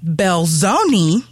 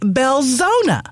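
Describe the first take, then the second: First: The name ends with an 'ee' sound. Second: The name ends with an 'uh' sound. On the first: The speaker calls it wrong. "It's not Belzoni" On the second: The speaker calls it right. "it's Belzona. Is that correct?"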